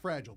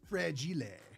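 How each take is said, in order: First: The word is given its plain English pronunciation. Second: The word is given a foreign-sounding pronunciation. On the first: It is the ordinary English word. "It's fragile, dear" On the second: The speaker thinks it is a foreign word. "Must be French"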